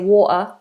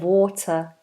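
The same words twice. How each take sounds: First: The middle T is a glottal stop. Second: The middle T is clearly pronounced. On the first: "in a Cockney accent ... you might say water" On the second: "instead of water ... Standard English, I'd say, pronounce the T"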